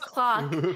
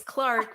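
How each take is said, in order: First: The name is said without an r sound. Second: The name is said with an r sound. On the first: The name was misheard. The speaker calls it wrong. "I thought his name was Clock" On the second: This is the real name. The speaker calls it right. "but it's Clark"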